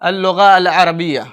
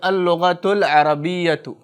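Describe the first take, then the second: First: The words end without the extra vowel endings. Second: The words are linked with full vowel endings.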